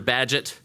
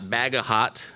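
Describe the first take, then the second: First: The name is said differently from its spelling. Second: The name is said just as it is spelled. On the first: The speaker calls it right. "He's Walter Bagehot" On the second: The speaker calls it wrong. "not Bagahot, as it's spelled"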